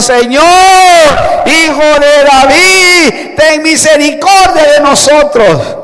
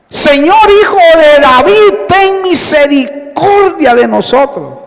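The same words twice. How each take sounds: First: Acted louder shouting. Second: Raised, high cry for mercy; acted shouted plea. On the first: Blind men cry out over the crowd hushing them, insistent shout. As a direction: stretch out each cry, insistent and raised. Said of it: "pero ellos gritaban más aún diciendo". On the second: Two blind men call to Jesus as he passes, acted shout. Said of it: "gritaron diciendo".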